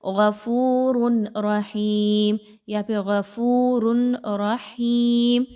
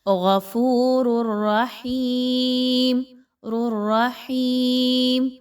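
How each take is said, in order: First: "غفور" cut off, a stop before "رحیم"; wrong reading. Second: Slow chant, "غفور" running straight into "الرحیم" with a doubled ra; correct merge without ghunnah. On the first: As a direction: demonstrate the mistake, breaking the words apart. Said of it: "یہ غلط انداز ہے". (غلط انداز، غفور کے بعد رک کر) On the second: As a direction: merge the ra sounds without nasal. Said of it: "آپ نے کیسے پڑھنا ہے؟". (درست ادغام بغیر غنہ) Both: Shown as a demonstration.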